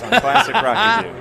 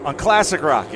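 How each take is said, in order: First: Louder, higher mock DJ announcement; over-the-top radio voice plugging the station; hammed-up radio DJ. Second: Said in the usual way. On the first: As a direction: belt it like a classic rock station ident. Repeating a radio tagline.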